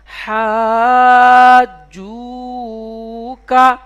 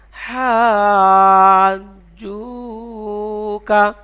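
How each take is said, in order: First: হাজুকা stretched very slowly; drawn-out model. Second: হাজুকা drawn out again, slower; repeated model. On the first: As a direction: sound out হাজুকা for learners. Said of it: "teacher models full word". (ধীরে টেনে হাজুকা) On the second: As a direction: echo the word for the class. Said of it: "teacher repeats full word". (আবার ধীরে হাজুকা) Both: Shown as a demonstration.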